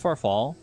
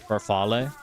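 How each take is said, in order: First: It is said with an English-style pronunciation. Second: It is said with an Italian-style pronunciation.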